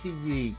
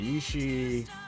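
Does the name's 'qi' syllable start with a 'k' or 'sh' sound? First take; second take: k; sh. First: The syllable is said with a hard 'k' sound. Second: The syllable is said with a soft 'sh' sound. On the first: The speaker calls it wrong. "not Ki. I said it wrong anyway" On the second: The speaker calls it right. "Yi, and it's she"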